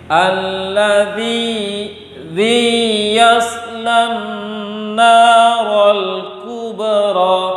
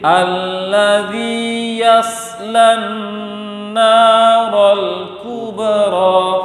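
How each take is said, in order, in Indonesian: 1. Mad panjangnya ditekan, seperti konsonan yang digandakan. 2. Mad panjangnya lembut, tanpa tekanan. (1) "Dia baca seperti ini" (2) "Mat itu sifatnya lembut"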